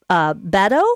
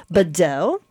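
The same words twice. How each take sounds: First: Badeau stressed on the first syllable, BA-deau; hesitant BA-deau with the first syllable punched; wrong syllable stress. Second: Badeau stressed on the last syllable, ba-DEAU; corrected ba-DEAU with a weak first syllable. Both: Real, not acted. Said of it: "the emphasis is on the wrong syllable".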